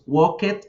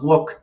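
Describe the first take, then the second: First: The ending is a separate 'ed' syllable. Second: The ending is a short 't' sound. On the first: The speaker calls it wrong. "Entonces decimos walked, no" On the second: The speaker calls it right. "Vamos a pronunciar como una T"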